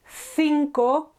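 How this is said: The first sound is a TH sound. This is the Spain pronunciation. "T H here"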